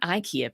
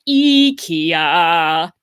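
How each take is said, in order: First: It is said with an English pronunciation. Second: It is said with a Swedish pronunciation. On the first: The speaker calls it wrong. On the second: The speaker calls it right. "that's apparently the right way to pronounce that word"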